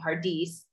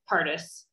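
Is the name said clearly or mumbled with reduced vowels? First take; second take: clearly; mumbled. First: The name is said clearly, stressing the last syllable. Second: The name is mumbled with its vowels reduced. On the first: "focusing either on the last syllable, saying Pardis" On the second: "just muttering the ugly Pardis and erasing the vowels"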